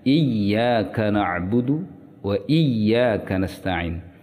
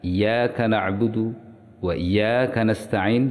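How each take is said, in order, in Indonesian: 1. Bunyi y pada Iyyaka ditahan dan dobel. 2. Bunyi y pada Iyyaka pendek dan tunggal. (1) "yang harusnya" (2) "tidak mentasydid huruf al-ya"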